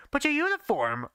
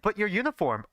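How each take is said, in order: First: Pitched way higher, urgent and startled; frantic question. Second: Said in the usual way. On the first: A narrator's reading. Narrator asking Daisuke about his uniform, frantic. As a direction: ask it in a frantic rush of surprise. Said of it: "I frantically asked".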